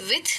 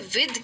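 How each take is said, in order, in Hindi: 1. अंतिम th की ध्वनि अघोष है, जैसे 'thin' में। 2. अंतिम th की ध्वनि घोष है, जैसे 'then' में। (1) "एक्चुअली इसे विथ नहीं कहते" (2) "इसे विद कहते हैं"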